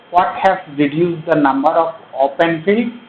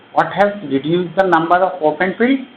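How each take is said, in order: Both takes have the same delivery.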